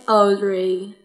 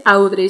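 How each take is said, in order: First: "Audrey" slowly, with an "aw" vowel; correct pronunciation. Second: "Audrey" with an open Spanish au, "ow-drey"; wrong pronunciation. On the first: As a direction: say "Audrey" as drawn-out "awd-ray". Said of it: "se dice". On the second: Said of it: "No se dice". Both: Shown as a demonstration.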